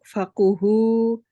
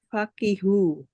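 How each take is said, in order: First: The vowel after the k is u. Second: The vowel after the k is i. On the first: This is the well-known reading. "jika dibaca dengan didomah, didomahkan kofnya adalah masyhur" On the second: This is an alternative reading some give. "dengan mengkosrohkan kof lalu dibaca fakihu"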